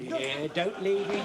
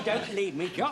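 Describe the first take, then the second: First: "leave" stretched and stressed, slow; pleading, stress on leave. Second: "don't" hit hard, at normal pace; pleading, stress on don't. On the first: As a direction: beg him, leaning on "leave". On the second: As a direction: insist on "don't" in the repeat. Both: Acted. Begs Jock not to go.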